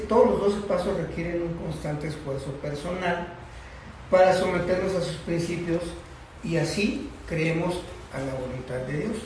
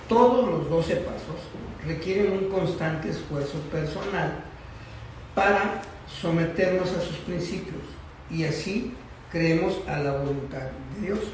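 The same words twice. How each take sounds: First: It is read at a normal pace. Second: It is read more slowly.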